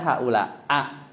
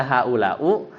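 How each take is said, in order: First: "haulaa" closing on a separate a; mistaken -a ending. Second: "haulau" closing on a u vowel; mistaken -u ending. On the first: Teacher showing students a faulty reading, "haulaa" with final a. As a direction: end "haulaa" on an open a, not i. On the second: Teacher showing students a faulty reading, "haulau" with final u. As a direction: end "haulau" on u, not i. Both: Shown as a demonstration. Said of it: "Lahan berarti kalau dibaca begitu".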